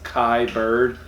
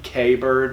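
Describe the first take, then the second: First: The first name rhymes with the word eye. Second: The first name sounds like the letter K. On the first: "but I think it's Kai Bird" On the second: "It might be K Bird"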